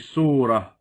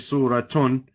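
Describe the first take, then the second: First: The word ends with a soft h sound. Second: The word ends with an added -tun sound. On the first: The speaker stops at this word. The speaker calls it right. "you say surah" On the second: The word is not treated as the end of the phrase. The speaker calls it wrong. "You don't say suratun"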